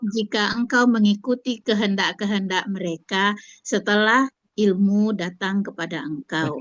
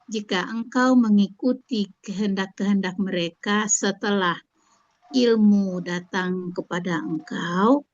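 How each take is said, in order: First: The voice falls to a full stop. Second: The end is left hanging, not finished.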